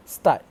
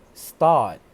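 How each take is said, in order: First: "start" with a short "ah", punched louder; shortened vowel. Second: "start" much louder, with a long held "aah"; elongated vowel. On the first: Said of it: "without elongating the R sound". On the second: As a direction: stretch the "ar" of "start" long and loud. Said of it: "which should sound like". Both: Shown as a demonstration.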